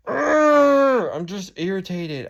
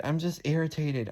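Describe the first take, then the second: First: Slow, much higher and louder, groaning out the words; drawn-out frustrated groan. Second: Said in the usual way. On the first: Real, not acted. Venting to the camera about dad and gas prices, real frustrated groan. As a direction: let the irritation burst out in a long groan.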